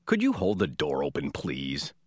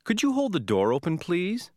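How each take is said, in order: First: Low, curt-toned demand; impolite, lower-pitched order disguised as a request. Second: High, lifting polite request; courteous, higher-pitched asking with a rising end. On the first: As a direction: ask rudely, pitch dropped and please falling away. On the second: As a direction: ask politely, voice rising on please. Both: Shown as a demonstration.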